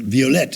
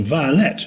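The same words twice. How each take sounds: First: "violette" said vee-oh-LET; French-style "violette", ending in LET; name pronunciation. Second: "violet" said VY-uh-lit; flower pronunciation. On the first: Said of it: "is sometimes a name as well". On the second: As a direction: stress the first syllable of "violet". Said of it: "violette is sometimes a name as well". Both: Shown as a demonstration.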